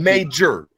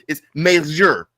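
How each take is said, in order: First: The middle consonant is a hard J sound. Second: The middle consonant is a soft Y sound. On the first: This is the English way of saying it. "In English, it's" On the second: This is the way other languages say it. "they don't say the J. It turns into a, a, a, a syllabic"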